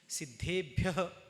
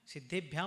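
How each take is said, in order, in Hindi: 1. शब्द श्वास वाली 'h' ध्वनि से समाप्त होता है। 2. शब्द 'm' ध्वनि से समाप्त होता है। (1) "शुद्ध उच्चारण" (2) "उच्चारण बहुत मिस्टेक्स होते हैं"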